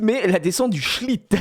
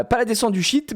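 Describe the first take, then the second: First: "schlitt" said slowly with a clear "shl" and the l sounded; correct name. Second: "la descente du shit" with a plain "shit", no l; "shit" said as the rude word, to the viewers; wrong name said as a joke. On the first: Correcting the viewers, slow deliberate "schlitt". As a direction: stress "mais" and spell out "schlitt" carefully. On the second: Correcting a misheard ride name, saying "shit" deliberately. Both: Shown as a demonstration.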